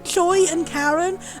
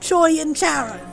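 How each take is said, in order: First: The second name begins with a K sound. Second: The second name begins with an SH sound. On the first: The speaker calls it right. "it's supposed to be Karen" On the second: The speaker calls it wrong. "rather than saying Joy and Sharon"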